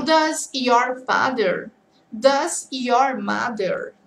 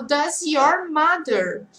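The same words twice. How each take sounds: First: "your father" and "your mother" drawn out slowly; very slow contrasting phrases. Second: Slow model phrase. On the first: Teacher contrasting "your father" and "your mother" very slowly. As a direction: stretch each phrase so students hear it. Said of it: "Então". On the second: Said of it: "agora eu falo". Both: Shown as a demonstration.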